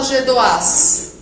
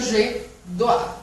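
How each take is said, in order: First: The final S is pronounced. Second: The final S is silent. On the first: The speaker calls it wrong. "mas por que você não fala je dois?" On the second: The speaker calls it right. "Porque não pronuncia o S"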